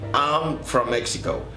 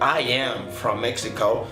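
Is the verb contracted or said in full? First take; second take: contracted; full. First: The words I am are joined into one syllable. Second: The words I am are said separately. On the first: "forma corta" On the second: "forma completa"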